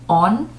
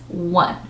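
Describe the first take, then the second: First: The word is said like 'on'. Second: The word is said like 'wun'. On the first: The speaker calls it wrong. "read that word as on, but it's incorrect" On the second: The speaker calls it right. "So the pronunciation is one"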